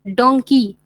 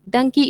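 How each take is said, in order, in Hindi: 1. पहला स्वर लंबी 'oh' ध्वनि है। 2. पहला स्वर छोटी 'uh' ध्वनि है। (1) "रॉन्ग प्रोनाउंसिएशन" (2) "करेक्ट प्रोनाउंसिएशन"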